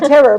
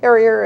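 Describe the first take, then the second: First: The word ends with a plain 'er' sound. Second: The word ends with an 'ee-er' sound. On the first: "Sometimes some people have a hard time pronouncing it" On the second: "Sometimes some people have a hard time pronouncing it"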